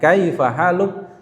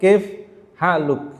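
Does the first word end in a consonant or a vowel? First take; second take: vowel; consonant. First: The first word ends with an added a vowel. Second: The first word ends on the f consonant. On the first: The speaker sounds like a beginner. The speaker calls it wrong. "kita terlihat wah baru belajar nih" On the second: The speaker sounds fluent. The speaker calls it right. "nah itu sudah mahir nih"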